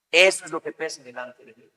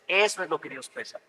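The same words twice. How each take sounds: First: "Eso" hit firmly, whole line said a bit stronger; emphatic restatement. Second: Said in the usual way. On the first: Shown as a demonstration. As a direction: drive home "Eso es lo que pesa delante de Dios".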